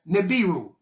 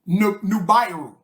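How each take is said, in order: First: The first syllable has an 'ee' vowel. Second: The first syllable has an 'oo' vowel. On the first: The speaker calls it wrong. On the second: The speaker calls it right.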